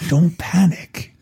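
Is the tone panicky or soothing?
soothing. It is said in a calm, soothing way.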